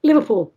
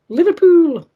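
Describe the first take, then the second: First: Said in the usual way. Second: A high, loud stab at a Scouse "Liverpool."; host trying a Liverpool accent on the city's name; attempted Liverpool accent. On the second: Shown as a demonstration. Reading listener's town, attempting a Scouse accent. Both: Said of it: "I can't do the accent".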